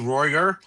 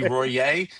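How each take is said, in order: First: The name is said with an English-style ending. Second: The name is said with a French-style ending. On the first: The speaker calls it wrong. "it can't be Royer" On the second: The speaker calls it right. "It's got to be Royer"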